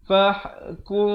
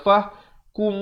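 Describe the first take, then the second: First: The m sound is blurred and held softly. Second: The m sound is pronounced clearly and fully. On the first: The speaker calls it right. "Ikhfa syafawi" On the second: The speaker calls it wrong. "Jangan baca fah kum, itu bunyi izhar"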